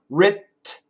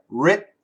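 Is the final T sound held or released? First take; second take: released; held. First: The final T is released with tongue movement. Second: The final T is held without release. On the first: The speaker calls it wrong. "If we move the tongue" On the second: The speaker calls it right. "leave your tongue there. Writ, don't move the tongue"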